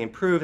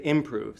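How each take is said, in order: First: Said in the usual way. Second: "improve" stressed on the first syllable; "improve" misstressed strong-weak, IM-prove; switched stress. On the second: Shown as a demonstration. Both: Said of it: "they switch the stress pattern on it".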